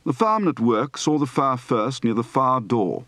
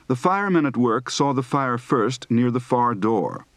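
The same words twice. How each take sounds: First: "firemen", "far" and "door" without R, as fah-mn, fah, daw; non-rhotic "far door", R left silent; dropped final R. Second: Said in the usual way. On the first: Shown as a demonstration. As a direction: drop the R in "fire", "far", "door". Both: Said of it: "Practice for dropping a final R".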